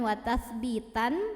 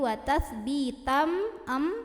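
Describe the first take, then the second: First: The ending is a clear n sound. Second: The ending merges into a held nasal m. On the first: The speaker calls it wrong. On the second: The speaker calls it right. "dimasukkan langsung ke mim, dileburkan ... sambil dengung"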